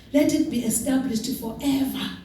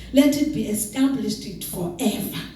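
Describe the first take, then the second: The two takes are said the same way.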